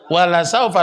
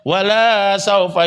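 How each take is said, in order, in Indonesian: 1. Vokal pada 'la' dibaca pendek. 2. Vokal pada 'la' dibaca panjang. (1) "lamnya pen" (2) "jangan pernah baca ... Salah"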